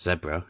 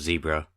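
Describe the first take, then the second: First: It is said the British way. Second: It is said the American way.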